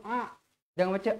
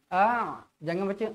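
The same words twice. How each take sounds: Both takes have the same delivery.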